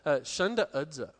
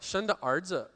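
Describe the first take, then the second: First: The second word begins without an r-colored sound. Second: The second word begins with an r-colored sound. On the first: It sounds like the word for goose. "Tony has a different pronunciation on stuff than my Dongbei friends have" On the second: It clearly means son. "in Dongbei, we have Arhua"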